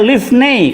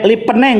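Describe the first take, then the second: First: The middle consonant is an f sound. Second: The middle consonant is a p sound. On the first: The speaker calls it right. "karena ini nggak ada dagesnya" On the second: The speaker calls it wrong. "Ya salah kamu"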